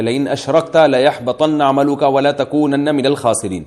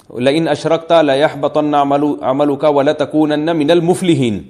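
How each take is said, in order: First: Slow, measured recitation ending with الخاسرین; Quran recitation. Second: Slow recitation ending wrongly with المفلحین; mistaken recitation. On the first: Teacher quoting the verse to listeners, slow measured recitation. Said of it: "اللہ تعالیٰ کا ارشاد ہے". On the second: Teacher showing a reciter's grave mistake, slow recitation with المفلحین. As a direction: recite the verse but end on المفلحین instead of الخاسرین. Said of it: "خاسرین کو مفلحین پڑھ لیا". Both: Shown as a demonstration.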